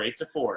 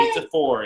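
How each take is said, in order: First: Said in the usual way. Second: Excited shout. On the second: Real, not acted. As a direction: yell the score in delight.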